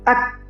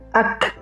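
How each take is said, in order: First: The final k is closed without air. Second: The final k is released with air. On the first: The speaker calls it wrong. "Jadi bukan ak" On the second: The speaker calls it right. "Jadi harus ak, ak untuk membedakan dengan huruf hamzah sukun"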